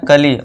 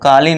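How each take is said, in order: First: The first vowel is short, like 'kali'. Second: The first vowel is long, like 'kaali'. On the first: The speaker calls it right. "इसे क्या पढ़ना, कली" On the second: The speaker calls it wrong. "काली नहीं, ये कल काली मत पढ़ना इसे"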